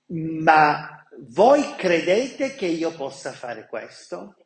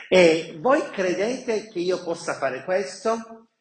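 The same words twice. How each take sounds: First: Slow, leaning hard on voi; Jesus's question. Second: "voi" stressed, tune rising at the end; repeated question. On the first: Jesus asking the blind men, slow with stress on "voi". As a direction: stretch it out and land on "voi", falling. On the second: Jesus asking the blind men again, rising on "voi". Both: Acted. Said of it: "prima di toccare gli occhi dice".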